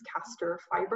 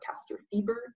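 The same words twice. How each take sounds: First: It is said with an American pronunciation. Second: It is said with a European pronunciation.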